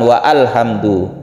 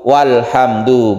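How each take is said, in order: First: The vowel of 'al' is pronounced separately. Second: The vowel of 'al' is dropped, joined smoothly. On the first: The speaker calls it wrong. "bukan wa alhamdu" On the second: The speaker calls it right. "kalau ada wawu walhamdu"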